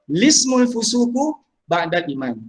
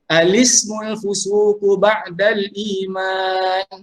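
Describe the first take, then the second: First: The phrase begins directly with an 'l' sound. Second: The phrase begins with an 'a' vowel sound. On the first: "Yang kedua" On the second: "membariskan hamzah wasal itu a lismu"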